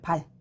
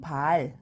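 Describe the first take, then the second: First: The vowel is said short. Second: The vowel is said long. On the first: It means a person's foot. "요거는 짧게 발음하죠" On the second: It means a blind hung at a window. "요거는 길게 발음하죠"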